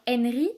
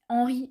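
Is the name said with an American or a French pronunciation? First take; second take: American; French. First: The name has an American English pronunciation. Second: The name has a French pronunciation. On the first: This is how it is said in America. "en Amérique, c'est beaucoup genre Henry" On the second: This is how it is said in France. "en France, c'est plus Henry"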